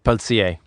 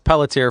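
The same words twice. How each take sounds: First: The name is pronounced the French way. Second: The name is pronounced the English way.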